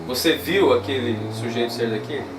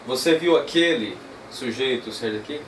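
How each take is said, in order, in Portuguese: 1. A palavra viu tem a tônica mais forte. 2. A palavra aquele tem a tônica mais forte. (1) "Eu vou usar o viu como palavra tônica na mesma frase" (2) "Esquece agora o viu e vamos para o aquele"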